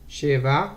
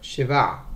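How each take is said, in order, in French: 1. L'accent est sur la première syllabe. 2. L'accent est sur la dernière syllabe. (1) "quand il y a sheva ou tesha tout seul, il est miléel" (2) "accentuer sur le var et pas sur le chez"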